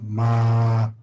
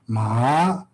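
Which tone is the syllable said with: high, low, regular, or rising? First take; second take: low; rising. First: The syllable is said with a low tone. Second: The syllable is said with a rising tone. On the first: "there's low tone ma" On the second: "is rising tone ma"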